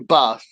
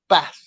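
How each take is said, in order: First: The word has a southern English long vowel. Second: The word has a northern English short vowel.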